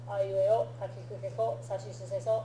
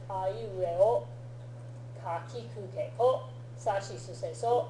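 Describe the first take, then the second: First: The syllables are recited very quickly. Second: The syllables are recited at a normal pace.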